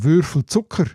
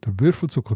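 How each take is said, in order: First: The stress is on Zucker. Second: The stress is on Würfel.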